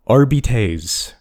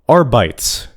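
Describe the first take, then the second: First: The word is said with Latin-style sounds. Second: The word is said with English-style sounds. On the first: The speaker calls it right. "It's pronounced Arbites" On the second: The speaker calls it wrong. "it is not Arbites"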